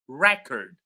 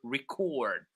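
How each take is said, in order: First: The stress is on the first syllable. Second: The stress is on the second syllable. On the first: It is used as a noun. "when it is a noun, we stress the first syllable" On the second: It is used as a verb. "when it is a verb, we stress the second syllable"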